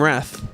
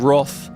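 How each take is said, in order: First: The word is said in a non-British way. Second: The word is said the British way.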